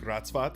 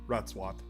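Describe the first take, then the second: First: The middle consonant is a V sound. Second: The middle consonant is a W sound. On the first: "Do I have the W being more like a V correct" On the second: "or is that actually just supposed to be"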